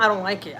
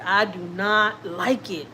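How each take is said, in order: First: Said in the usual way. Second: Every word spaced out, "I do not like it" slow and deliberate; firm, dragged-out "I do not like it"; slow emphatic denial. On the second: Real, not acted. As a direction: stress "not" and lean on each word slowly.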